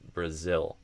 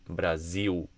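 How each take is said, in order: First: It has a kit vowel and ends in dark L. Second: It has an e vowel and ends in u. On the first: The speaker calls it right. "instead of Brazil" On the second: The speaker calls it wrong. "Brasil instead of Brazil"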